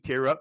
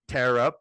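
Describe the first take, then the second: First: The word 'tear' rhymes with 'ear'. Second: The word 'tear' rhymes with 'air'. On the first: Someone is crying from sadness. "Maybe you guys are sad about something" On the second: Something gets ripped apart. "it makes more sense to be tear up"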